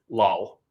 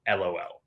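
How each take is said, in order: First: It is said as a single word. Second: It is spelled out letter by letter. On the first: This is a personal, unusual reading. "I read it as lol" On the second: This is the usual, conventional reading. "I'm going to stick to the status quo"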